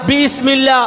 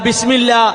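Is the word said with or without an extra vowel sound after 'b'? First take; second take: with; without. First: An extra vowel is sounded after the first consonant. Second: No extra vowel is sounded after the first consonant. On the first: This is the full form, which is harder to say often. "എല്ലാ സമയത്തും ബിസ്മില്ല ബിസ്മില്ല എന്ന് പറയലാണോ എളുപ്പം?" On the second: This is the shortened form, which is easier to say often. "ആ അലിഫിനെ ഒഴിവാക്കപ്പെട്ട് ബിസ്മില്ല ബിസ്മില്ല എന്ന് പറയലാണോ എളുപ്പം?"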